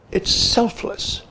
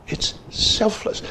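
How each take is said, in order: First: Breathy hush with the weight on "It's", not on "selfless"; whispered. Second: Even softer hush, the weight on "selfless"; whispered. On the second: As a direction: whisper "It's selfless" slowly, leaning on "selfless". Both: Shown as a demonstration. Key point, hushed.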